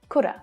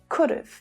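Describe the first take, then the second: First: Have becomes a short uh, with no v. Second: Have is shortened to a short v sound. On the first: "you might not even hear that v sound" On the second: "So the have is shortened to just of"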